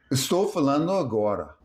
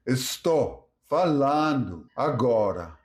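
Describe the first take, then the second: First: Said in the usual way. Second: "Estou falando agora" spaced out, final O of "falando" as U; reduced final O. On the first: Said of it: "often sounds closer to". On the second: Shown as a demonstration. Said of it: "Notice the O reduces to U".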